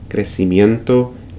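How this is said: The c is said like s. This is how it is said in Latin America. "in Latin America it's pronounced as an S"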